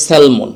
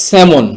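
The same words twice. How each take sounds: First: স্যালমন with the l sounded, "sal-mon"; spelling pronunciation. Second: স্যামন with silent l, "sa-mon"; correct pronunciation. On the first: Teacher shows the natural misreading, l sounded. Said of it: "স্বাভাবিকভাবে উচ্চারণ করতে গেলে". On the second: Teacher introduces the next word, silent l. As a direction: say স্যামন loud, without any l. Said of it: "তার পরের শব্দটি হচ্ছে". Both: Shown as a demonstration.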